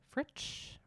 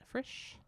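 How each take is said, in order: First: The name is said with a T sound. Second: The name is said without a T sound.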